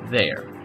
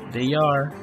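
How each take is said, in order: First: The words are merged into one syllable. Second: Two separate full words are said. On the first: "Forma contraída" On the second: "Forma larga"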